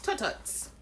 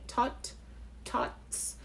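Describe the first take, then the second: First: The word is said quickly in one run. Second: The word is said slowly, broken into parts. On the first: The speaker calls it right. "So it's said that quickly" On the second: The speaker calls it wrong. "It is not said like"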